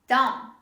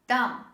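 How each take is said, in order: No difference in how they are said.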